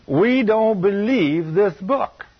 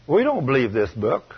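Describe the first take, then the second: First: "We don't believe this book" dragged out slowly and higher; slow emphatic repeat. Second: Said in the usual way. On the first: Real, not acted. Preacher repeating the charge to the church, slow and pointed. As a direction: lean on every word, much slower.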